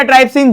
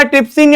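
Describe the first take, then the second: First: ट्राइप्सिन with a "try" first syllable; long-i pronunciation. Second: ट्रिप्सिन with a short "trip" first syllable; short-i pronunciation. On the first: Teacher offering students the alternative name, ट्राइप्सिन said "trype-sin". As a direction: say ट्राइप्सिन as "TRYP-sin", rhyming with "ripe". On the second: Teacher offering students one accepted name, ट्रिप्सिन said "trip-sin". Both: Shown as a demonstration. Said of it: "जो भी आप बोलो".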